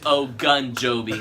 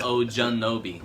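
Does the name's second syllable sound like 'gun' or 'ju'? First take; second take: gun; ju. First: The second syllable sounds like 'gun'. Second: The second syllable sounds like 'ju'. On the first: The speaker calls it right. "Said it's O Gun Joby" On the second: The speaker calls it wrong. "not O Junobi"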